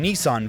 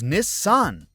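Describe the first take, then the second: First: Nissan is said the usual English way. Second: Nissan is said the Japanese way. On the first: The speaker calls it wrong. "We're all pronouncing Nissan very wrong" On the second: The speaker calls it right. "the correct pronunciation is Nissan"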